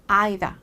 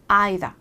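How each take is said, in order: First: It is said in a British accent. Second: The same.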